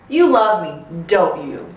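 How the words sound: The voice falls at the end. The speaker already knows the answer. "I go down"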